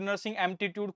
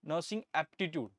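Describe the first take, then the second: First: The second word has an added m sound. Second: The second word has no m or l sound. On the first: The speaker calls it wrong. "कुछ भी बोलते हैं" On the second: The speaker calls it right. "इसको अच्छे से pronounce करिए"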